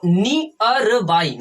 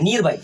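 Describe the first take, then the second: First: नियर बाई said as near, two beats ni-yar, slowly; correct reading. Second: नीर बाई read with a long ee, wrongly, as neer. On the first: Teacher shows students the right way, a slow careful near. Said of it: "नियर और ये देखो बाई". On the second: Teacher shows students the wrong reading, a flat long neer. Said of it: "ये सही नहीं है". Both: Shown as a demonstration.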